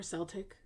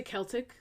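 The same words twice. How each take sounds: First: Celtic said with a soft S, SEL-tik. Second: Celtic said with a hard K, KEL-tik. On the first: Podcaster offering the alternative pronunciation, Celtic with a soft S. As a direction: start Celtic on an S sound. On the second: Podcaster offering two pronunciations, Celtic with a hard K. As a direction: start Celtic on a K sound. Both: Shown as a demonstration. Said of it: "Celtic or Celtic".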